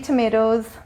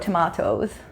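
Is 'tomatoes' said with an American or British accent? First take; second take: American; British. First: It is said with an American accent. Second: It is said with a British accent.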